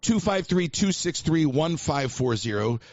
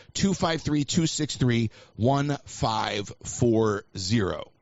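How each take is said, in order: First: Said in the usual way. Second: Slow right down to a drawn-out last group; slowing number read-out. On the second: Real, not acted. Host repeats the call-in number to listeners, slowing to a crawl. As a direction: repeat the number, stretching ONE FIVE FOUR ZERO.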